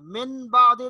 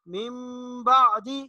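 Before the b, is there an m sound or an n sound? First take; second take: n sound; m sound. First: A plain n sound comes before the b. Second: A nasal m sound comes before the b. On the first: The speaker calls it wrong. "मिन बादे नहीं पढ़ेंगे" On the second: The speaker calls it right. "बल्कि इसको पढ़ेंगे मिम बादी"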